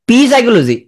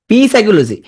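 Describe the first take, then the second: No difference in how they are said.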